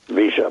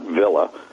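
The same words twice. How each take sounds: First: It is said in the Argentine Spanish way. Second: It is said in a non-Argentine Spanish way. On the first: The speaker calls it right. "Only in Argentina it's pronounced Villa" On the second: The speaker calls it wrong. "not Villa"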